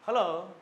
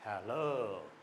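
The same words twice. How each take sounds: First: "हेलो" pitched higher and louder; bright hello. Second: "हेलो" lower and softer, falling; low hello. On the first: Teacher shows a lively "हेलो", higher and louder. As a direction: lift "हेलो" high and clear. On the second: Teacher shows a low, soft falling "हेलो". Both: Shown as a demonstration. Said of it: "अच्छे तरीके से बोलें".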